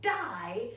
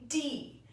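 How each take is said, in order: First: The vowel is a long 'eye' sound. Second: The vowel is a long 'ee' sound. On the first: The speaker calls it wrong. "this looks like it would be die" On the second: The speaker calls it right. "it's actually going to be D"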